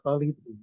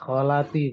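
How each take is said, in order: First: The vowel after the L is 'i'. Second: The vowel after the L is 'a'. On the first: The speaker calls it wrong. "bukan kholiti" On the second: The speaker calls it right. "nah, kholati"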